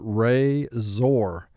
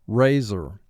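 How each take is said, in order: First: The last syllable is said with a full 'or'. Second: The last syllable is said with a reduced vowel.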